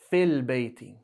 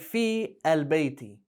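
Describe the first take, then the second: First: Fi and al merge into one syllable, fil. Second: Fi and al are said as separate syllables. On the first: The speaker calls it right. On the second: The speaker calls it wrong. "don't say fi al-bayti"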